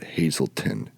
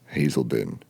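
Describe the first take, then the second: First: The last syllable begins with a t sound. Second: The last syllable begins with a d sound. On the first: The speaker calls it wrong. "I don't know why everybody pronounces it Hazelton" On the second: The speaker calls it right. "It's a D E N"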